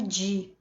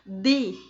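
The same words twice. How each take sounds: First: The d is hissed, like a soft 'j'. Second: The d is dry, without any hiss. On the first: The speaker calls it wrong. "no espanhol não é di, jamais" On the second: The speaker calls it right. "o di nordestino ... seco, jamais chiado"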